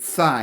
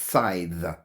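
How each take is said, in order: First: The word ends on a vowel with no th. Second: The word ends with a th sound. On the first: The speaker calls it wrong. "I've always pronounced it sigh" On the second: The speaker calls it right. "You do pronounce the the at the end"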